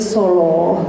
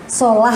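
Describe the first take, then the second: First: The lam is pronounced thick and heavy. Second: The lam is pronounced thin and light. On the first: "tapi bacanya soloh gitu" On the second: "solah kan tulisannya"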